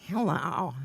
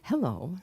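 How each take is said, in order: First: Leering, falling greeting; creepy Ronnie. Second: Said in the usual way. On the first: Retold or imitated. Ronnie practicing on a woman in group, creepy greeting. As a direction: imitate a badly misjudged flirtatious hello. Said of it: "That's disgusting". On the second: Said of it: "one of the women would come and say".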